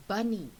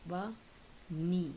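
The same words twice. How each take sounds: First: Said in the usual way. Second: "bunny" pulled apart, BUN, long pause, NY; split into syllables. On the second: Shown as a demonstration. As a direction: break "bunny" into two slow beats. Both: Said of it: "take the two syllables apart".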